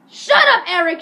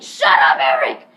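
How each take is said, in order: First: Very high, loud mock scream; hammed-up exasperated shriek; retold teacher's yell. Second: Low, loud mock bellow; hammed-up lower-pitched roar; retold teacher's shout. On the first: Teacher silences repetitive Eric, high mock scream. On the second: Teacher silences repetitive Eric, low mock bellow.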